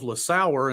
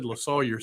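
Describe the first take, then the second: First: The name ends sounding like 'sauer'. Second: The name ends sounding like 'sawyer'. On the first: The speaker calls it wrong. "I've been saying to myself LaSauer, and I was like, no, that ain't right" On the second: The speaker calls it right. "So I said LaSawyer"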